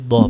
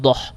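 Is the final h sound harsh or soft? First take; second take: soft; harsh. First: The final h is a soft, plain breath. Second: The final h is a harsh, throaty scrape. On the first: The speaker calls it right. "tapi doh pakai h" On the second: The speaker calls it wrong. "bukan doh"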